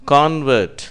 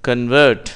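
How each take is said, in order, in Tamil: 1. அழுத்தம் முதல் அசையில் உள்ளது. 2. அழுத்தம் இரண்டாவது அசையில் உள்ளது. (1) "முதலில் சொல்லப்பட்ட வார்த்தை convert என்பதற்கு மாறியவர் அல்லது மாறிய ஒரு பொருள் என்று அர்த்தம்" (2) "அடுத்து சொல்லப்படுகிற கன்வெர்ட் என்பது வினை சொல்லை குறிக்கும்"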